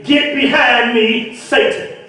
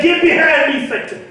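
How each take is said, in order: First: Slow, deliberate words with a hushed Satan; slow rebuke to yourself. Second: Higher, ringing rebuke with Satan cut short; Jesus rebuking Peter, delivered as a raised sermon line; preached rebuke. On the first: Shown as a demonstration. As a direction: say it slowly into the mirror, dropping to a breath on Satan. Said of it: "go look in the mirror and say". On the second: Retold or imitated. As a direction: turn and command it out with preacher's force.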